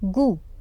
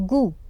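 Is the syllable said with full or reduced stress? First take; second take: reduced; reduced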